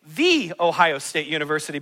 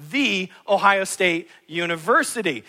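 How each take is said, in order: First: Proud fan stressing "the". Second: "the" stretched and stressed before Ohio State University. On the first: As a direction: lean hard on "the" as if there's only one. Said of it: "we like to say". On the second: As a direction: give "the" its weight again. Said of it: "but there's only one". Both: Shown as a demonstration.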